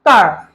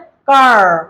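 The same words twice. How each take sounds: First: It is said in a British accent. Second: It is said in an American accent.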